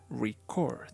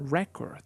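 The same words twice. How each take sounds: First: The stress is on the second syllable. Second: The stress is on the first syllable. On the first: It names an action. "the intonation goes on the second syllable" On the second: It names a thing. "the intonation goes on the first syllable"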